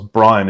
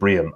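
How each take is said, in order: First: The first vowel sounds like 'eye'. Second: The first vowel sounds like 'ee'. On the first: This is how people with the name say it. "everybody who's calling themselves Brian" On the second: This is what the name should be by the rule. "is in fact called Brian"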